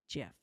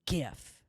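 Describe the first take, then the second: First: The word starts with a soft J sound. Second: The word starts with a hard G sound. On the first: The speaker calls it right. "It's a soft G. It's pronounced Jeff" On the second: The speaker calls it wrong. "not GIF"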